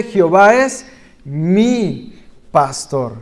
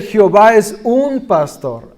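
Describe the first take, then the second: First: Slow, weighty "Jehová es mi pastor" with mi leaned on; slow reverent emphasis on "mi"; stress on mi. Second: Said in the usual way. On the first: Shown as a demonstration. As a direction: dwell on the word "mi", drawn out. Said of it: "No, él dice". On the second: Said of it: "No dice".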